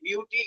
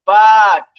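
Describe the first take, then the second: First: The vowel sounds like the letter name 'you'. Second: The vowel is a short 'uh' sound. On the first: The speaker calls it wrong. "এরকম পড়বে না" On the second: The speaker calls it right. "তখন সে পড়বে কি ব আ ট"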